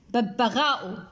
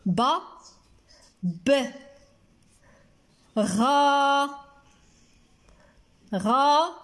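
First: Said in the usual way. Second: ببغاء in isolated syllables with long pauses; slow, separated teaching syllables. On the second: Shown as a demonstration. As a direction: sound out each piece, holding غا. Writes word syllable by syllable.

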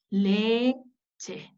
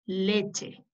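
First: "Leche" in two slow parts, "le" then "che"; sounding out. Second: Said in the usual way. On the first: Shown as a demonstration. Teacher introducing a new letter's sound, "Leche" syllable by syllable. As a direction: separate "Leche" into drawn-out syllables. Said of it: "ese es su sonido". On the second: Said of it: "Ahí dice leche".

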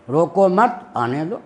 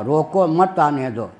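First: Slow, रोको मत as one phrase, then आने दो; pause after मत. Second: Slow, रोको set apart, then मत आने दो as one phrase; रोको alone, then मत joined to आने दो; pause after रोको. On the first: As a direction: join मत to रोको, break, then आने दो rising. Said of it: "निकाल लिया कि आने में". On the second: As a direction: break after रोको and lean on मत. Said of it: "तात्पर्य मेरा क्या था रोकने में". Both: Retold or imitated.

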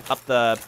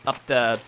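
The two takes are said the same way.

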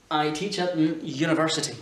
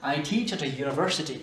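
First: AN sounded with its n before university; wrong article AN. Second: A as a weak uh before university; correct schwa article. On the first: Teacher demonstrating the mistaken article before a y sound, sounded n. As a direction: keep the n in AN before "you-niversity". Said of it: "c'est pas un comme on vient de le voir". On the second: Teacher demonstrating the right article before a y sound, weak schwa. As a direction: slip A in as uh before "you-niversity". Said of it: "c'est E". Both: Shown as a demonstration.

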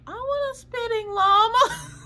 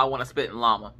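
First: Put-on high, slow childish whine; wanting the spitting llama like a child; whiny kid voice. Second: Said in the usual way. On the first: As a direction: beg like a little kid who wants the toy. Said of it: "And I'm like". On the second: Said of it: "I legit told my mama-in-law".

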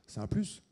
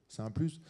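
No difference in how they are said.

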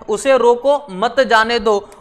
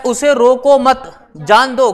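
First: Slow, with a pause between रोको and मत; उसे रोको, break, then मत जाने दो as one phrase; comma after रोको. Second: Slow, रोको मत as one phrase, then a pause before जान दो; firm रोको मत, break after मत; comma after मत. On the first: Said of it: "यहाँ पे कॉमा लगा दें". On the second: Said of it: "यहाँ पे लगा दो comma". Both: Shown as a demonstration.

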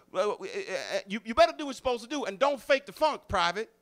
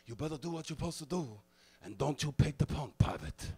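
First: High, loud and fast barking drill sergeant; a fast, pumped-up sergeant impression; imitating a drill sergeant. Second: Fast sergeant voice with less punch; a weaker copy of the sergeant; Francisco's failed imitation. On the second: Mimicking Francisco copying the other sergeants, less convincingly. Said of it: "Drill Sergeant Francisco would try to imitate them".

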